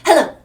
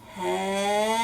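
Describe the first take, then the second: First: It is said very quickly. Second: It is said very slowly.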